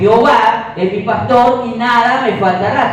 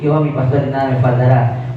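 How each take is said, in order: First: It is said with conviction and faith. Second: It is said casually and dismissively.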